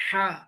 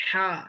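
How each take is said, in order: The two takes are said the same way.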